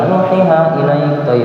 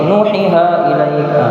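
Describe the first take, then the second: The two takes are said the same way.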